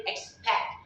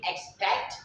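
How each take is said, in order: First: EXPECT said like "expeck"; final T dropped. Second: EXPECT with a released final T; final T sounded. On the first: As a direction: say EXPECT, stopping on the K. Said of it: "you can say expect". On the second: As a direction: say EXPECT, finishing on a clear T. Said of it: "Instead of using expect". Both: Shown as a demonstration.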